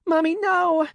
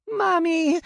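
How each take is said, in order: First: Put-on very high, loud little-girl cry of no; child wailing over her dead mother; anguished child's scream. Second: Put-on very high, loud little-girl scream; little girl screaming as mother dies; child's scream. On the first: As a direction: wail it in despair. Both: Child sees mother killed.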